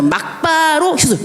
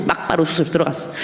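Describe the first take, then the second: First: 막바로 jumps high, then the pitch falls; stress on 막바로. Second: Said in the usual way. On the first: Retold or imitated. Telling the church she was rushed straight into surgery, 막바로 stressed high. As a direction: hit 막바로 hard and high.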